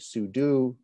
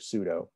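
First: The second syllable sounds like 'doo'. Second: The second syllable sounds like 'doe'. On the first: It follows the meaning 'superuser do'. "perhaps the proper way to pronounce that would be sudo" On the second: It is the form people commonly use. "I hear sudo"

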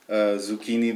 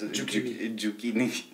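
First: It is said in a standard English way. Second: It is said in a Bhutanese English way.

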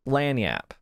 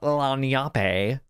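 First: The word ends with a 'yap' sound. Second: The word ends with a 'yape' sound. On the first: The speaker calls it right. "I was told resoundingly that it's pronounced lanyap" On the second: The speaker calls it wrong. "I pronounce it lanyape because I was just guessing"

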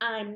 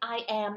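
First: It is said as one contracted syllable. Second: It is said as two separate full words. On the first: "เวลาที่เราออกเสียงเนี่ยก็จะเป็น" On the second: "เราสามารถที่จะใช้เป็น"

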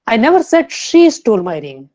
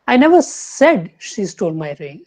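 First: The stress falls on the word she. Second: The stress falls on the word said. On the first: Someone else stole the ring. "Fourth" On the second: It was only implied, not said. "Third लेंगे"

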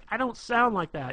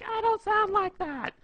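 First: It is said in a normal speaking voice. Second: It is said in a high, mocking put-on voice. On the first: The woman objects to the impression. "she'll be like" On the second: The objection is mimicked to tease her. "and you're like"

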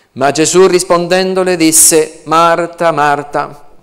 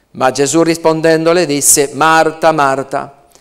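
Both takes have the same delivery.

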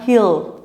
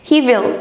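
First: Will is contracted into one syllable with he. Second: Will is said as a full separate word.

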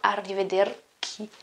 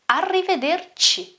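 First: The final syllable starts with a k sound. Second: The final syllable starts with a ch sound. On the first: The speaker calls it wrong. "It's not arrivederci" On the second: The speaker calls it right. "it's not K, but it is C"

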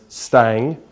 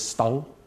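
First: The surname is said with an English pronunciation. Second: The surname is said with a Norwegian pronunciation. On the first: This is how the speaker usually says the name. "I pronounce it as Stang" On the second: This is the more authentic form of the name. "the more correct pronunciation is Stang"

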